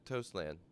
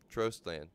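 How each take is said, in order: First: The first part sounds like 'toast', without an r. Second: The first part sounds like 'trost', with an r. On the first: The speaker calls it wrong. "Toast or Trost" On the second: The speaker calls it right. "No, it's Trost"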